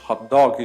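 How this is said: It is said with an English accent. "Que a gente falaria em inglês"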